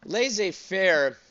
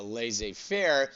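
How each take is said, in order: First: Laissez-faire said slowly, pitched high and falling; drawn-out emphasis. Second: Said in the usual way. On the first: Shown as a demonstration. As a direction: stretch out Laissez-faire, high then dropping. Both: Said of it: "It's the way I say it".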